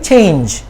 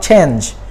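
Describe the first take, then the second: First: The vowel is a long A sound. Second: The vowel is not a long A sound. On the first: The speaker calls it right. "similarly change" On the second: The speaker calls it wrong. "not change"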